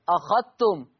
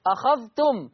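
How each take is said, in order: First: أخذتم said "akhattum", ذال merged into the تاء; أخذتم without the ذال, doubled تاء; assimilated ذال. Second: Said in the usual way. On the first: Shown as a demonstration. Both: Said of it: "لا يتلفظ بالذال".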